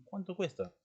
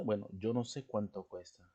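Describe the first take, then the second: First: High-pitched "cuánto", falling onto "cuesta"; pointed price question, pitched well up on "cuánto"; direct question. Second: Plain statement, "cuánto cuesta" falling away; matter-of-fact reply with no lift on "cuánto"; indirect question. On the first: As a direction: ask someone directly, lifting "cuánto" high. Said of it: "Estás preguntando directamente a alguien". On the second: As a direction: say "cuánto cuesta" as a comment, not asking. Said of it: "es algo indirecto". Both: Shown as a demonstration.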